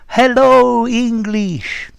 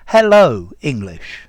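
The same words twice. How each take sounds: First: The syllables and vowels are drawn out long. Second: The syllables and vowels are short and clipped. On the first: The speaker calls it wrong. "the syllables are too long" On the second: The speaker calls it right. "much more staccato"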